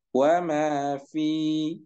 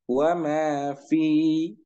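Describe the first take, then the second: First: The vowel is held long before a stop. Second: The same.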